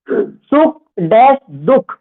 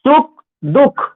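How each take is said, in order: First: सुख dash दुख read out slowly, word by word, for writing down; slow, clear dictating voice; slow dictation. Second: Said in the usual way. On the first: Shown as a demonstration. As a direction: spell out सुख dash दुख slowly so students can write it.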